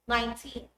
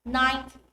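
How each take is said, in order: First: Put-on nineTEEN, with a long TEEN; last-syllable stress. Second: NINEty, stressed on NINE; stress on first syllable. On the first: Teacher comparing numbers, nineTEEN stressed at the end. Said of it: "to stress the last syllable". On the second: Teacher comparing numbers, NINEty stressed at the front. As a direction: hit NINE in ninety, light -ty. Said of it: "Let's compare". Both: Shown as a demonstration.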